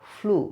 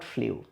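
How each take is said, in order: First: The vowel is a plain 'oo', like 'floo'. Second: The vowel has a y-glide, like 'flyoo'. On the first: The speaker calls it right. "Just like ফ্লো, ফ্লু" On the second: The speaker calls it wrong. "Not ফ্লিউ"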